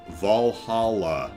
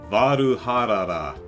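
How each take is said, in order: First: It is said with ordinary English sounds. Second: It is said with Japanese-style syllables and r sounds.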